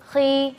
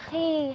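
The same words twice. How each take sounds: First: The kh sound is full and heavy. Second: The kh sound is weak and light. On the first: The speaker calls it right. "Tetap kita sifat isti'lanya dapat" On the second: The speaker calls it wrong. "lemah gitu ya. Nah, itu tidak boleh"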